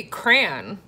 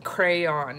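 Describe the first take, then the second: First: "crayon" as a single syllable, CRAN; one-syllable crayon. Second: "Crayon" as cray-on, both syllables sounded; standard two-syllable crayon. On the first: Showing viewers her own way, one-syllable crayon. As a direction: say "crayon" to rhyme with man. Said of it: "like, with one syllable". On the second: Showing how most people say it, two-syllable crayon. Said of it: "that's how most people say it". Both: Shown as a demonstration.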